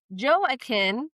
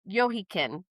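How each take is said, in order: First: The name is said with an American pronunciation. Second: The name is said with a Hebrew pronunciation. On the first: "which is like the Americanized version" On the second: "I think it's like the Hebrew version"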